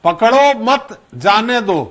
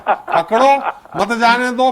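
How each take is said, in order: First: पकड़ो मत run together, pause, then जाने दो; pause after मत. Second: पकड़ो alone, pause, then मत जाने दो together; pause after पकड़ो. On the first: Host showing what a comma changes, pause after मत. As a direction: break slowly after मत, before जाने दो. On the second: Host showing what a comma changes, pause after पकड़ो. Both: Shown as a demonstration. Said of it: "कामा का अंतर होता है".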